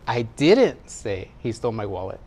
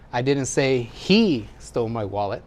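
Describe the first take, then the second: First: The word "say" carries the stress. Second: The word "he" carries the stress. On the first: It was implied rather than said. "Maybe I implied it" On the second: Someone else took it. "It's not him, somebody else"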